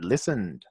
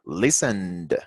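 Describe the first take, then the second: First: The final d sound is said lightly and naturally. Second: The final d sound is drawn out and exaggerated. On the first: "Si yo estuviese hablando de forma natural" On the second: "Por supuesto que estoy exagerando"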